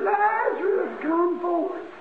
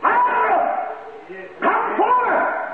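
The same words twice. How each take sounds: First: It is said in a plain, quiet voice. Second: It is said in a loud, commanding voice.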